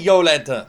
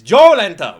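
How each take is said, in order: First: The name begins with a Y sound. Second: The name begins with a J sound. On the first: The speaker calls it wrong. "why do you say Yolenta" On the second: The speaker calls it right. "it's pronounced Joe with a J"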